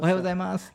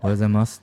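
First: It is said in a bright, grateful tone. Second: It is said in an annoyed tone.

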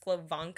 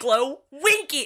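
First: The name is pronounced with German sounds. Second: The stress falls on the final 'winky' part. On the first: This is the name's real pronunciation. "It's German. It's Glowenke. ... actually what it is" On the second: This is how others usually say the name. "emphasis on the winky"

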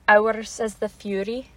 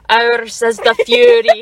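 First: It is said in a Scottish accent. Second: It is said in an angry tone. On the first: "you say that in a Scottish accent, please?" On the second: "You gotta say like you're angry"

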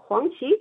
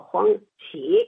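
First: The second syllable is not in the third tone. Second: The second syllable is in the third tone. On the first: The speaker calls it wrong. "我们同学也老叫黄奇是错了" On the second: The speaker calls it right. "是三声"

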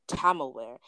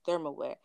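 First: The word begins with a plain t sound. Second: The word begins with a th sound. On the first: This is how a parent said the word. The speaker calls it wrong. "my mom would always pronounce that as tamalware" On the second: This is the standard form of the word. The speaker calls it right. "I didn't realize it was thermalware"

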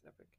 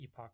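First: The word ends with an 'ick' sound. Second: The word ends with an 'ock' sound. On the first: "but I guess it's Epic" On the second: "I always call it the Epoch Times"

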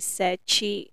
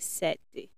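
First: It is said with a Brazilian Portuguese accent. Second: It is said with a Mozambican Portuguese accent.

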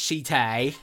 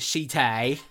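First: The word is said in an exaggerated accent. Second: The same.

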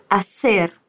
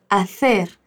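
First: The c sounds like s, Colombian style. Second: The c sounds like th, Spanish style.

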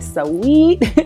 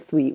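First: The word is said with two syllables. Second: The word is said with one syllable. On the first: "we say sweet" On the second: "We don't say sweet"

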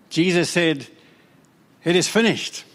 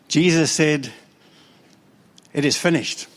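No difference in how they are said.

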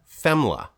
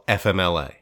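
First: The acronym is said as one word. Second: The acronym is spelled out letter by letter. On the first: "Dennis and I both pronounced that FEMLA" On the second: "Others often say"

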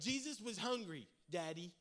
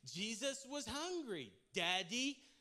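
First: It is said plainly, without attitude. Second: It is said sassily, with attitude.

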